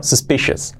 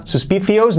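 First: "suspicious" as sus-PI-shes; sh sound and weak "-es" in "suspicious"; correct pronunciation. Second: "suspicious" as sus-PI-thius; higher, Spanish th in "suspicious"; wrong pronunciation. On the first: Teacher gives the correction: "suspicious" as sus-PI-shes. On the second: Teacher rejects the learner's version: "suspicious" as sus-PI-thius. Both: Shown as a demonstration. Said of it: "no, suspicious".

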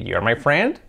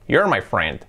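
First: "You're my friend" as a statement with rising end; wrong question tune. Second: Said in the usual way. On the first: Shown as a demonstration. Teacher shows what is not valid, questioning rise on "friend". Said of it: "No vale decir". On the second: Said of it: "Con la contracción".

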